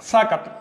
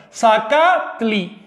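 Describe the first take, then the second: First: "Zacatl" in two syllables, stress on the first syllable "za". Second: "Zacatli" drawn out slowly, stress on the middle syllable "ca"; stress on second syllable. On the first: Teacher shows students how "Zacatl" shifts its stress, crisp and clear. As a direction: clip "Zacatl" short, hitting "za". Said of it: "Para la primera sílaba". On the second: Teacher shows students the stress in "Zacatli", slow and deliberate. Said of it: "En la segunda sílaba". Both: Shown as a demonstration.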